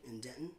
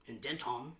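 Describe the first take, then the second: First: Said in the usual way. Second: Denton said "den-TAHM"; mock pronunciation. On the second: Shown as a demonstration. Singer playfully repeats the town for the crowd, Denton as "den-tahm". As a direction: give Denton a full T and an open "tahm" ending.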